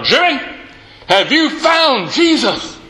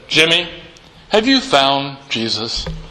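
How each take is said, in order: First: It is said loudest, with irritation. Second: It is said at a quiet, normal volume.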